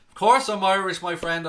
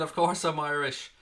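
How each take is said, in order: First: "Of course I'm Irish" burst out much louder and higher in a hammed-up Irish accent; loud mock Irish. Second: Said in the usual way. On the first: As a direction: belt it out as a cartoon Irishman. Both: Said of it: "am I Irish or English?".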